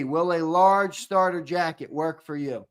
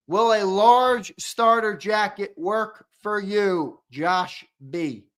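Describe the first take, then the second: First: Said in the usual way. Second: A slow, careful question to the winner; slow, drawn out. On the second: Acted. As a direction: stretch every word out. Asking the winner about jacket size.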